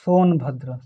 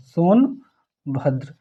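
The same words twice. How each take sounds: First: Said in the usual way. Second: Slow dictation. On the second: Shown as a demonstration. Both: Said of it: "teacher dictates district name".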